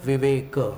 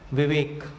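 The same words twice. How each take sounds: First: The word ends with a short final 'a' vowel. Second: The word ends on a bare consonant, vowel dropped. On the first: This is the Marathi way of saying it. "और मराठी में क्या बोलेंगे" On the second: This is the Hindi way of saying it. "Hindi भाषा में जानबूझ करके उसको हलंत बोलते हैं"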